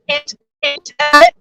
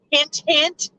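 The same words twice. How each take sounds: First: "Hint, hint, hint" in a high singsong; teasing hint. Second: Said in the usual way. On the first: Acted. Nudging listeners to help, in a high teasing singsong.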